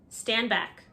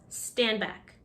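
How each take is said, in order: Both takes have the same delivery.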